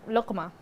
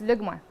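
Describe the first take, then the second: First: The middle consonant is a deep throaty q. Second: The middle consonant is a softer hard g. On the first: This is the classical form of the word. "the classical Arabic is luqma because it's qa" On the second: This is how the word is said in everyday Bahraini speech. "We just drop it. We soften it. So it's lugma"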